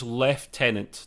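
The word is said in the British way. "He introduces himself as Lieutenant ... I think it's a British thing"

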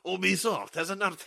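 It is said in a put-on French accent. "going to read it in a French accent"

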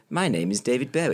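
It is said in a posh accent.

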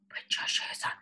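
It is said in a whisper.

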